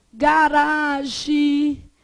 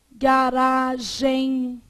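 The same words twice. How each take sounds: First: "Garagem" said as "garagi", oral ending; first variant. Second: "garagem" with nasal EM ending; second variant. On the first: Teacher listing variants, "Garagem" slowly with oral ending. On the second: Teacher listing variants, "garagem" slowly with nasal ending. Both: Shown as a demonstration. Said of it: "O que mais que você pode ter?".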